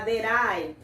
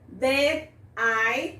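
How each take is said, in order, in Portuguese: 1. As duas palavras são ditas juntas. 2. As duas palavras são ditas separadamente.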